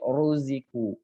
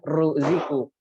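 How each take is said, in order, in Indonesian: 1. Bunyi r-nya tebal dan berat. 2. Bunyi r-nya tipis dan ringan. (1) "tapi ruziku" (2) "bukan ruziku"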